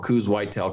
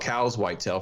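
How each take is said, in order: First: Coues is said to rhyme with news. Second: Coues is said to rhyme with cows.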